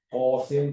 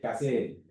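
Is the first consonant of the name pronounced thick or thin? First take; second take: thick; thin. First: The first consonant sounds thick and deep. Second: The first consonant sounds thin and light. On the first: This is the original Arabic form. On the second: This is the Malay form.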